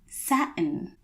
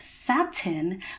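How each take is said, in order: First: The middle T is stopped, not crisply released. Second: The middle T is pronounced as a crisp T. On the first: The speaker calls it right. "within the general American dialect, you would say satin" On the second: The speaker calls it wrong. "you might think that it's pronounced satin"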